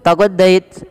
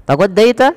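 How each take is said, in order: First: "taghaddaita" said flat with a falling end, as a plain statement; "taghaddaita" as a level statement; flat statement tune. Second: "Taghaddaita?" with a sharp high rise at the end to make it a question; "Taghaddaita?" asked with a strong upward question tune; rising question tune. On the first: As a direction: say "taghaddaita" without any question rise. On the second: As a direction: lift the last syllable of "Taghaddaita?" up high. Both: Shown as a demonstration. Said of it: "Dengan intonasi yang berbeda tentu".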